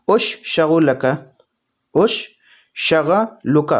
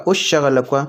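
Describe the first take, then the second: First: Broken-down demo. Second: Said in the usual way. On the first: Shown as a demonstration. Teacher breaking the word apart for learners, slowly. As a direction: split "اش" and "شغلک" apart, dragging out each syllable. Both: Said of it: "تو اس کو عربی میں بولیں گے".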